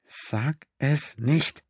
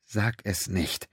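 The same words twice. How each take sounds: First: Slow, higher, drawn-out urgent command; willed command. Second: Slow, much softer pleading under the breath; silent plea. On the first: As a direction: stretch every word, pressing the thought onto him. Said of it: "und befahl ihm". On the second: Pennington silently wills Quinn not to say it, hushed. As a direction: beg silently, barely voiced. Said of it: "Er wünschte sich mit aller Macht". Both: A narrator's reading.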